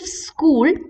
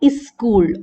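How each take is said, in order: First: The word starts directly with the s sound. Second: An i vowel is added before the s. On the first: "instead of school" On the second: "South Asians have the tendency to pronounce it as iskul"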